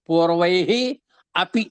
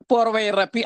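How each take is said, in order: First: The words are said separately with no linking 'r'. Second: The words are joined into one with an 'r'. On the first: "పూర్వై అపి అన్నమాట" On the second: "అది పూర్వైరపి అయింది"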